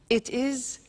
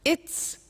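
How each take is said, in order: First: It is said as two full words. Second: It is said as one contracted word.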